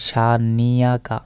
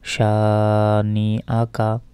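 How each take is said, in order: First: A y sound joins into the last syllables. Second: A glottal stop comes before the last syllables. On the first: The speaker calls it wrong. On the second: The speaker calls it right.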